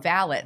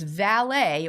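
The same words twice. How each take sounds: First: It is said in a British way. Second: It is said in a non-British way.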